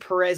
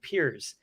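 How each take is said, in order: First: The name is said with two syllables, like Perez. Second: The name is said short, sounding like Piers. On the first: This is how he said it as a small child. The speaker calls it wrong. "I said Perez in kindergarten" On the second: This is the Portuguese pronunciation. The speaker calls it right. "how you would say it in Portuguese. It was like it's actually like Purist, like Piers"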